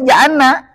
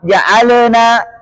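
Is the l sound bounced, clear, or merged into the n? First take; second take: merged; bounced. First: The l is merged into the following n. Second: The l is released with a bouncing echo. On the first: "Jangan sampai diidghamkan ... Huruf lam ke huruf nun" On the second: "Jangan sampai muncul padanya bunyi qalqalah"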